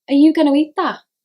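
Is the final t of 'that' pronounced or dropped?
dropped. The final t of that is dropped.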